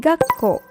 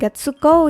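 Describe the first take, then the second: First: The middle is said as a held doubled k. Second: The middle is said as a full tsu syllable. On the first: The speaker calls it right. "tapi gakko. Ga-nya ditekan" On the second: The speaker calls it wrong. "Dibacanya bukan gatsuko ya"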